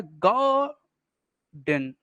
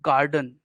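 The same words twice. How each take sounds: First: Teacher sounding out गार्डन in two separate beats; split into syllables. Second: Said in the usual way. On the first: Shown as a demonstration. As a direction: stretch the first syllable of गार्डन, pause, drop on the second. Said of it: "दो तरह से बांट सकते हैं". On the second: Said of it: "इसको अपन हम दो तरह से बांट सकते हैं".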